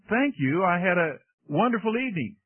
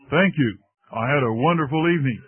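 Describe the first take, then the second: First: It is said in a normal voice. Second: It is said in a much lower voice.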